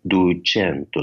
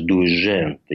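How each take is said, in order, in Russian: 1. Средний согласный — обычный звук 'ch'. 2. Средний согласный — мягкий звук 'zh'. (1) "По-флорентийски" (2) "если говорить именно с флорентийским таким акцентом"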